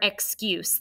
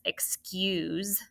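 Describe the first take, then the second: First: The final consonant is a hissing s sound. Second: The final consonant is a buzzing z sound. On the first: It is the noun, a reason given for something. "like I said originally" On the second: It is the verb, as in asking to be excused. "even though it sounds like that Z"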